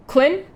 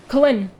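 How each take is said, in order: No difference in how they are said.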